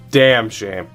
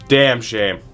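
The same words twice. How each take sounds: The two takes are said the same way.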